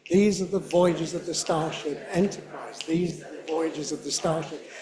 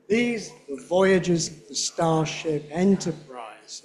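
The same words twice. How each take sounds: First: Quicker, flowing read; match the fast native pace; at his speed. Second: Slow, careful line; slow careful read. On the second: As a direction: take it slowly. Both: Shown as a demonstration. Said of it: "can you do it at his speed".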